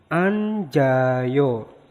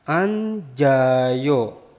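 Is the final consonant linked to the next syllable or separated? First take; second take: linked; linked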